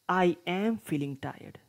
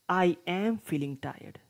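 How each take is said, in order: First: I and am are said as two words. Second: The same.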